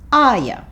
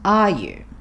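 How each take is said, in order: First: The word 'you' is reduced to 'ya'. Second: The word 'you' is said in full.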